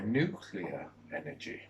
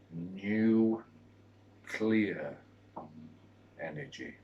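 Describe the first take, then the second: First: The phrase is said at ordinary speed. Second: The phrase is said slowly, word by word.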